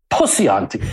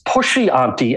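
First: The first word has an 's' sound. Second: The first word has a 'sh' sound. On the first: "as Pussy Auntie" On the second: "would pronounce Pushy Auntie"

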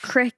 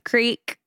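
First: Creek is said with a regional small-town pronunciation. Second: Creek is said with a standard pronunciation. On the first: "Creek instead of creek" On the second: "instead of creek"

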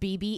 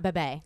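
First: Both syllables have a long 'ee' vowel. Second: Both syllables have a short 'eh' vowel. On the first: The speaker calls it right. "BB, it's not bebe" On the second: The speaker calls it wrong. "it's not bebe"

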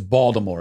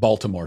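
First: The name is clipped, sounding like Bawdimore. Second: The name is said carefully, with every sound. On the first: The speaker knows the city. The speaker calls it right. "it is Baltimore. ... It's Baltimore, Bawdimore" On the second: The speaker does not know the city. The speaker calls it wrong. "It's not Baltimore"

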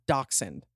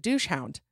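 First: The first syllable does not sound like 'douche'. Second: The first syllable sounds like 'douche'. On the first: The speaker calls it right. "That is pronounced dachshund" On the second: The speaker calls it wrong. "pronounced just like douche"

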